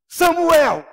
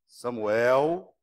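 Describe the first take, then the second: First: The name is said in a harsh, stern tone. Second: The name is said in a cautioning, warning tone. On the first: The person is being firmly rebuked. "uma repreensão mais rigorosa" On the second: The person is being cautioned. "uma advertência"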